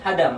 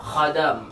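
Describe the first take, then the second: First: The word starts with a plain, soft h. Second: The word starts with a rasping throaty kh. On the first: The speaker calls it wrong. "hadam katanya" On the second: The speaker calls it right. "yang benar itu kho"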